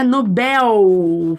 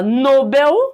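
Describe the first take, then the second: First: The stress is on the last syllable. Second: The stress is on the first syllable. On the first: The speaker calls it right. "fo foco, força no Nobel" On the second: The speaker calls it wrong. "tá errado"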